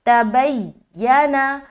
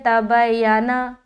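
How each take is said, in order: First: The y sound is doubled and held with tension. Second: The y sound is short and single, not held. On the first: The speaker calls it right. "जमाव के साथ जोड़ना है बा को या से" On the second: The speaker calls it wrong. "लोग पढ़ेंगे तबयाना ... तो ये गलत है। ... सख्ती नहीं पाया गया, जमाव आपने नहीं किया।"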